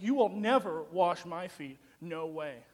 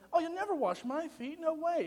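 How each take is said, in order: First: It is said as a forceful, emphatic exclamation. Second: It is said lightly, as a casual question.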